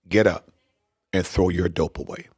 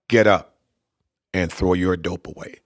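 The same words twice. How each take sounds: First: It is said at a normal conversational volume. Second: It is said louder and higher in pitch.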